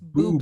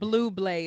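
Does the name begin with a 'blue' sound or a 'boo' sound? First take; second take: boo; blue. First: The name begins with a 'boo' sound. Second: The name begins with a 'blue' sound. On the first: The speaker calls it right. "it's buble" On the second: The speaker calls it wrong. "It's not blue blay"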